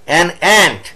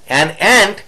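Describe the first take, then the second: No difference in how they are said.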